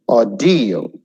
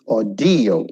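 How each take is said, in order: Both takes have the same delivery.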